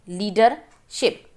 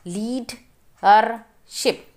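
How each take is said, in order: First: Said in the usual way. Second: leadership said slowly, syllable by syllable; slow syllable reading. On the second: Shown as a demonstration. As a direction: spell out leadership slowly in parts. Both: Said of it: "Read the multi-syllable words".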